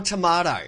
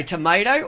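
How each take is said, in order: First: TOMATO as to-MAH-to; British-style tomato. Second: First TOMATO as to-MAY-to; American tomato. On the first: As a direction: say "tomato" with a broad "ah". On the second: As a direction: say "Tomato" with an "ay" middle. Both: Shown as a demonstration. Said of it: "what do you say?".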